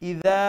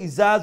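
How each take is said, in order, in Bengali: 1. মাঝের ব্যঞ্জনবর্ণটি একটি নরম d ধ্বনি। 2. মাঝের ব্যঞ্জনবর্ণটি একটি z ধ্বনি। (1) "ইদা তৈলে দাল উচ্চারণ করলাম" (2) "ইজা যদি হয় তাইলে যা উচ্চারণ করলাম"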